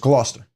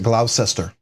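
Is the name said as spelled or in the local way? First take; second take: local way; as spelled. First: It is pronounced in the local, unspelled way. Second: It is pronounced just as it is spelled. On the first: This is how locals say it. The speaker calls it right. "but it's Gloucester" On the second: This is how outsiders say it. The speaker calls it wrong. "if you look at it, it everyone's pronounced it Gloucester"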